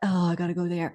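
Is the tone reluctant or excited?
reluctant. It sounds reluctant and unenthusiastic.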